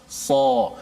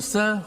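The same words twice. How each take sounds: First: The s sound is heavy, tongue back raised. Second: The s sound is thin and flat. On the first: The speaker calls it right. "pangkal lidah kita terangkat" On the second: The speaker calls it wrong. "huruf tu bersifat dengan mendatar, nipis"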